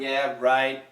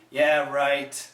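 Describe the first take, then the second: First: The final T is held and not released. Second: The final T is fully released. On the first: "We could have a stop sound" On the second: "We could finish the T"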